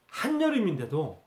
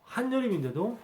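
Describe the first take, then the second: First: Said in the usual way. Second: 한여름인데도 pitched high with a rising, disbelieving tune; incredulous emphasis. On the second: Shown as a demonstration. Preacher stressing the absurdity of winter clothes in summer, rising disbelief. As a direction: lift 한여름인데도 up in shocked disbelief.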